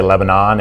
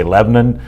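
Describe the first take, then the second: First: "Lebanon" in three syllables with a full final -NON; worldly pronunciation. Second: "Lebanon" squeezed to two syllables, LEB-nun; Southern pronunciation. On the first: Host contrasting world citizens with Southerners, worldly pronunciation of "Lebanon". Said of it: "if you're a citizen of the world". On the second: Host showing how sons of the South say it, Southern pronunciation of "Lebanon". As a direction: say "Lebanon" as LEB-nun, swallowing the middle vowel. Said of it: "If you're a son of the South". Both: Shown as a demonstration.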